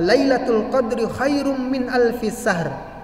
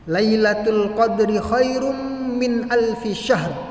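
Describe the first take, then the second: First: The last word begins with a plain 's' sound. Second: The last word begins with an 'sh' sound. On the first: It means better than a thousand sleepless nights. The speaker calls it wrong. "Tapi dia bacanya apa? Kecil" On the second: It means better than a thousand months. The speaker calls it right. "Seharusnya syahr, yaitu sin besar itu yang ada titiknya"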